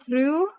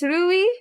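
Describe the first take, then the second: First: The name ends with an 'oo' sound. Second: The name ends with an 'ee' sound. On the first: The speaker calls it wrong. "and not Ru. All the time I've been pronouncing it Ru" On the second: The speaker calls it right. "So it's Rui"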